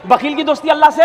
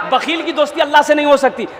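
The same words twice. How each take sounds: First: "से" left hanging for listeners to finish; unfinished call-and-response cue ending on "से"; prompting the crowd. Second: Said in the usual way. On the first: Real, not acted. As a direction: stop short after "से", inviting the answer. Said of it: "अरे बोलो ना भाई".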